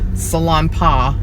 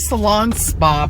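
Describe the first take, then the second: First: The second part starts without an s sound. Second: The second part starts with an s sound. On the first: The speaker calls it right. "I think it's salon pa, maybe" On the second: The speaker calls it wrong. "I think I'm saying it wrong"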